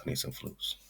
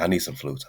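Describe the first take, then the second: First: Whispered. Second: Said in the usual way. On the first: Real, not acted. Repeating his need for flutes, whispered. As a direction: whisper it, unvoiced and soft.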